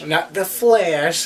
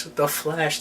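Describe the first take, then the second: First: Mock dramatic. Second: Said in the usual way. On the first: Shown as a demonstration.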